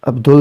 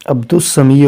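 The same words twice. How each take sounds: First: عبدال with the lam clearly sounded, as Abdul; wrong reading shown. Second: عبد السمیع said as Abdus-Samee with the lam silent; sun letter assimilation. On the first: Teacher shows students the wrong reading عبدال. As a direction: pronounce the lam in عبدال to show the mistake. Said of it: "عبدال نہیں ہوگا". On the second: Teacher models the right reading of عبد السمیع for students. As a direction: glide the lam of عبد السمیع straight into a doubled s. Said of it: "یہ الف لام جو ہے تلفظ میں شامل نہیں ہوگا". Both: Shown as a demonstration.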